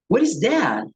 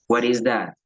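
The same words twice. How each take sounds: First: The pitch moves with lively, varied tones. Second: The pitch stays flat and monotone. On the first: The speaker shows interest. The speaker calls it right. "utilizamos los tonos de voz" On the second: The speaker seems uninterested. The speaker calls it wrong. "yo no pregunto"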